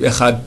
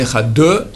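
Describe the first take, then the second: First: The word ends with a t sound. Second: The final d is followed by an extra vowel. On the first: "avec un taf" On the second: "ni Ehad deux"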